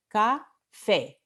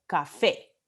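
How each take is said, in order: First: "Café" split into ca, FÉ, stress on the last; syllable by syllable. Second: Said in the usual way. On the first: Shown as a demonstration. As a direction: break "Café" in two beats for learners, stressing FÉ. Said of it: "La última sílaba tiene vocal tónica". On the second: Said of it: "se llama una palabra aguda".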